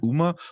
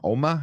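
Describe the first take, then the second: First: The first vowel sounds like 'oo'. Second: The first vowel sounds like 'oh'. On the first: The speaker calls it wrong. "I kept saying Uma" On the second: The speaker calls it right. "I think it's pronounced like Oma because it's like Korean"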